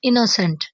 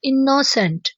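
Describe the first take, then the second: First: The word is pronounced softly and gently. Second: The word is pronounced harshly and forcefully. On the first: The speaker calls it right. "इसे बोलेंगे इनोसेंट" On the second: The speaker calls it wrong. "इसे आपने सख्ती से pronounce नहीं करना, जैसे कि इनोसेंट ऐसे नहीं बोलना"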